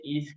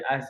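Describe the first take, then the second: First: It begins with an i vowel. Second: It begins with an a vowel. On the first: The speaker calls it right. "kenapa kita baca is" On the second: The speaker calls it wrong. "kenapa tak baca as"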